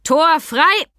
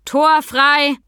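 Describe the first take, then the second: First: Loud, high shout with open pride, rising at the end; proud call. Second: Loud, high call across a hall. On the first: Sam announces Mika's arrival to the hall, proud call. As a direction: call it out proudly, lifting the last word. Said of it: "rief mit unverhohlenem Stolz in der Stimme". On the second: Sam calls into the riding hall, calling out. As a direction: sing out a warning so the whole hall hears. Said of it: "Dann rief er in die Halle". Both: A narrator's reading.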